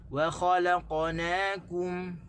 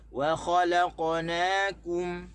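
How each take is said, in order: First: Slow "wa khalaqnakum" with "wa" set apart; proper stress on "wa khalaqnakum"; correct stress. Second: "Wa khalaqnakum" stressed as one word; the common misreading; "khalaqnakum" run together wrongly. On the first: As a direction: separate "wa" and slow down. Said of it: "sebenarnya kita kena baca". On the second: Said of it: "kita tak boleh baca". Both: Shown as a demonstration.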